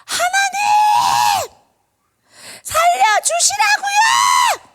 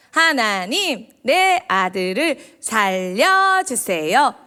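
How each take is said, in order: First: Very high, loud, drawn-out screamed plea; wailing prayer. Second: Slow, drawn-out polite plea to God; measured prayer, every word stretched out; composed mock prayer. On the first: Acted. Teacher acting a mother praying for her dying son, wailing. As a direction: scream it to God as a desperate crying mother. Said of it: "막 그렇게 울부짖었어요". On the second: Teacher showing children a too-composed mother's prayer, slow and measured. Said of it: "이런 기도일까요?".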